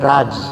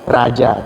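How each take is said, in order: First: The word ends on a consonant, no final vowel. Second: The word ends with a final vowel sound. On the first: This is how Indians say it. "orang India A-nya nggak dibaca, jadi dia bilangnya Raj" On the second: This is how Indonesians say it. "Kalau Indonesia kan raja ya"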